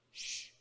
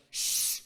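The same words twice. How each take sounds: First: Retold shushing. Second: Loud, insistent shush; retold forceful shushing. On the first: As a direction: imitate a restrained shush. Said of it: "he turned around and he went". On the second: Student turns on girls still talking during the sermon, loud shushing. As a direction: hush them hard, acting it out. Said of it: "He turned around and went".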